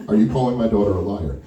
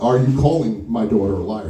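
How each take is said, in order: First: Low, quicker first challenge; tight-lipped father's accusation; stern challenge. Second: Low and deliberate, leaning on "calling"; stern, measured accusation weighted on "calling"; insistent repeated challenge. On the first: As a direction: ask it low and level, as a warning. Father confronts the man, first asking. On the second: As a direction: press "calling" harder, drawing the question out. He starts babbling again. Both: Retold or imitated.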